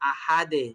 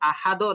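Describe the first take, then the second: First: The final D bounces out with an 'e' sound. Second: The final D bounces out with an 'o' sound. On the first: The speaker calls it right. "নিচের দিকে" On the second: The speaker calls it wrong. "আহাদো না"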